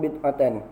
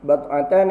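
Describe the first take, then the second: First: The first vowel is an 'i' sound. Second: The first vowel is an 'a' sound. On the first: "Boleh juga dibaca bid'atan" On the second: "bad'atan ataupun bid'atan. Dua-dua boleh baca"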